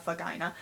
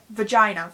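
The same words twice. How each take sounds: First: "vagina" dropped lower and much softer, embarrassed; awkwardly hushed "vagina". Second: "vagina" said louder and firmly, no shame; loud unashamed "vagina"; bold vagina. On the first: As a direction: murmur "vagina" like a taboo. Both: Shown as a demonstration. Repeating the word in contrast.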